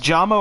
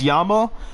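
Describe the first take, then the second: First: The name begins with a J sound. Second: The name begins with a Y sound.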